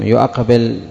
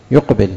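First: يؤقبل as "yu-aqbil", the unused full form; hamza kept in يؤقبل. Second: يقبل as "yuqbil", two syllables; hamza dropped in يقبل. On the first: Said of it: "لم تقل". (يؤقبل بالهمزة المفتوحة بعد الياء) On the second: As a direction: run "yu" straight into q in يقبل. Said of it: "إنما قالت". (يقبل بحذف الهمزة وسكون القاف) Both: Shown as a demonstration.

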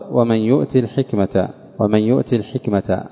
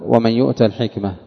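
First: يؤت said "yu'ti", with kasra; short i after the ta in يؤت; Yaqub's reading. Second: يؤت said "yu'ta", with fatha; short a after the ta in يؤت; majority reading. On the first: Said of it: "وقرأ يعقوب". (يؤت بكسر التاء) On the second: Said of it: "فأما على قراءة الجمهور". (يؤت بفتح التاء) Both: Shown as a demonstration.

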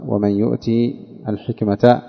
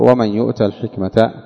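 First: يؤتي said "yu'tii", ending in i; slowly, with i after the ta in يؤتي; Yaqub's reading. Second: يؤت said "yu'ta", with fatha; short a after the ta in يؤت; majority reading. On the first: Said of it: "وعلى قراءة يعقوب". (يؤتي بكسر التاء) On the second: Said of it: "أما على قراءة الجمهور". (يؤت بفتح التاء) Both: Shown as a demonstration.

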